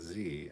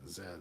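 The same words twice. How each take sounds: First: The letter is said the American way. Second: The letter is said the Canadian way. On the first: "the American Z" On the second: "Z like a lot of Canadians"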